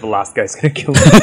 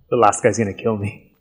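First: It is said in a cheerful, upbeat tone. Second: It is said in a gloomy, worried tone. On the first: The speaker is trying to sound optimistic. The speaker calls it right. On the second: The speaker expects to lose. The speaker calls it wrong.

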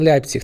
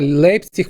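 First: The first syllable is said with 'yai'. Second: The first syllable is said with 'ei'. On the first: This follows the newer rule for German diphthongs. The speaker calls it wrong. "а не Лейпциг" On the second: This is the traditional established form. The speaker calls it right. "Лейпциг мусить бути саме"

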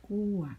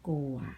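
First: The word is said with a falling tone. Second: The word is said with a low tone. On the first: "โท" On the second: "เอก"

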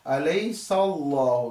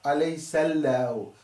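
First: The word Allah is pronounced heavy and thick. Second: The word Allah is pronounced light and thin. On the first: The speaker calls it right. "we should read the Allah heavily" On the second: The speaker calls it wrong.

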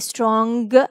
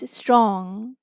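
First: The final g is pronounced strongly. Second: The final g is barely pronounced. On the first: The speaker calls it wrong. "We don't say strong" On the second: The speaker calls it right. "strong is strong"

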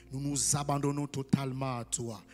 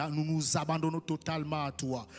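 Both takes have the same delivery.

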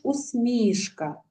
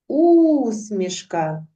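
First: The stress is on the second syllable. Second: The stress is on the first syllable. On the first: "може бути наголос на другий склад" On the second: "може бути наголос на перший склад"

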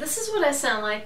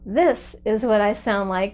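First: The voice sounds distant, thin and roomy. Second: The voice sounds close, clear and present. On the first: The speaker calls it wrong. "this is what I sound like without the lavalier mic" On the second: The speaker calls it right. "this is what I sound like with the lavalier mic attached to my video camera"

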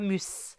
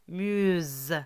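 First: The final consonant is a hissing S sound. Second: The final consonant is a buzzing Z sound. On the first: The speaker calls it wrong. "c'est pas mus" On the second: The speaker calls it right. "On va prononcer Z"

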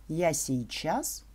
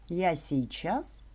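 The two takes are said the same way.

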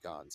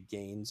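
First: The name is said with its native pronunciation. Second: The name is said with an anglicized pronunciation. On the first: The speaker calls it right. "it should be Gans" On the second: The speaker calls it wrong. "That's just my accent"

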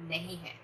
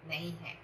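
Both takes have the same delivery.

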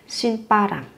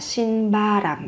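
First: The second syllable starts with a tense, strong consonant. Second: The second syllable starts with a soft lax consonant. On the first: The speaker calls it right. "phát âm với âm căng và mạnh" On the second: The speaker calls it wrong. "Không phải là xin ba ram"

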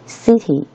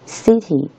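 First: The middle t is pronounced as a clear t. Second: The middle t is pronounced as a clear t.

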